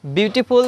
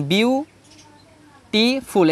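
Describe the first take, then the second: First: Said in the usual way. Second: "beautiful" slowly split as বিউ, টি, ফুল; syllable by syllable. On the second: Shown as a demonstration. Teacher counting syllables for students, saying "beautiful" slowly in three separate pieces. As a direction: break "beautiful" into three parts with clear pauses. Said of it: "এখানে তিনটা syllable আছে".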